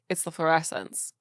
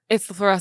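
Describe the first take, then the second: First: It is said in a cool, mysterious way. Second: It is said in an awkward, unmysterious way.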